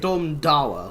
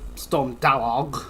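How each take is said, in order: First: The name sounds like 'Dara'. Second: The name does not sound like 'Dara'. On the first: The speaker calls it right. "it's really Storm Dawa, like Dara O'Brien" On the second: The speaker calls it wrong. "or however you're meant to pronounce it"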